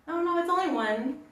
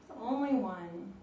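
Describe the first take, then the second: First: Sudden high rise on only; surprised. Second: Said in the usual way. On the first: Real, not acted. Checking the clock, a surprised high realization. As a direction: catch yourself, pitch jumping up on only.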